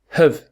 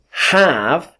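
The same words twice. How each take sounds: First: The word has a weak schwa vowel. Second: The word has a full, strong vowel. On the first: "we say have" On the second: "instead of have"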